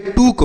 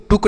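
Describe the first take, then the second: First: टूक with a long oo; correct long oo. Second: टुक with a short, quick u; wrong short u. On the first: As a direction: stretch the vowel of टूक. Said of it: "यह टूक होता है". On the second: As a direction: cut the vowel of टुक short. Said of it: "गलत उच्चारण है". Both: Shown as a demonstration.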